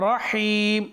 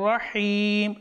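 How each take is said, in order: Both takes have the same delivery.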